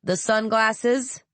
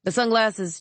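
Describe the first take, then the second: First: Slow, insistent rising "sunglasses?"; rising slow "sunglasses" pressed again; repeated question. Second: Said in the usual way. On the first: A narrator's reading. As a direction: draw out "The sunglasses?" with a pointed rise. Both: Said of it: "repeated the soldier".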